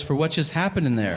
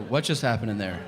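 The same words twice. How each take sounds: First: Higher-pitched wife, mildly insistent; imitated concerned wife. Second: Clueless husband. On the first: Wife answers husband about the bathroom, mildly insistent. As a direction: lightly voice the wife pressing her point. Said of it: "She goes". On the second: Retold or imitated. Husband back to alarmed wife, mildly clueless. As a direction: ask it evenly, as if nothing happened. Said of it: "And I go".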